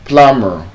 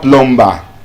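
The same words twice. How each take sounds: First: The B in the middle is silent. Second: The B in the middle is pronounced. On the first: The speaker calls it right. "when you have B after M, the B is silent" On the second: The speaker calls it wrong. "So it's not plumber"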